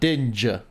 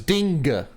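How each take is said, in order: First: The consonant is a soft j sound. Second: The consonant is a hard g sound. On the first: The speaker calls it wrong. "not Dinja" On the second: The speaker calls it right. "So it's Dinga"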